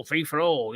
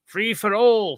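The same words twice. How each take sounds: First: Said in the usual way. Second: Quoting the episode. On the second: Retold or imitated. Reviewer lightly voicing a campaign chant from the Free for All episode. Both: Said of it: "Hey, from Free for All, look".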